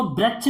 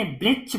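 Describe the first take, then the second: First: "वृक्ष" with an "a" sound, as "braksh"; wrong reading. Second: "वृक्ष" with a "ri" sound, as "briksh"; correct reading. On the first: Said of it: "नहीं पढ़ते". ("वृक्ष" को "व्रक्ष" पढ़ना) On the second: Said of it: "पढ़ते हैं". ("वृक्ष" में "रि" की आवाज़) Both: Shown as a demonstration.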